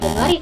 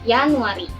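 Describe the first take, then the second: First: The word begins with a J sound. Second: The word begins with a Y sound. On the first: The speaker calls it wrong. "bukan Januari teman-teman" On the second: The speaker calls it right. "tapi dibacanya Januari. ... di depannya ada pakainya huruf Y"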